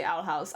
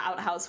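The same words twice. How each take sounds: First: "Outhouse" said as owl-house, with an L; "Outhouse" with owl as the first word; intended "Owl House". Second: "Outhouse" said as out-house, with a T; "Outhouse" with out as the first word; misheard "Outhouse". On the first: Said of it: "just not pronouncing it very well". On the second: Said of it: "everyone seems to hit out". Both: Shown as a demonstration.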